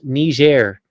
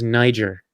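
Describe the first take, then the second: First: The name is said with a French-style pronunciation. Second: The name is said with an English-style pronunciation. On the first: The speaker calls it right. "it's pronounced Niger" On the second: The speaker calls it wrong. "I mispronounced this country as Niger"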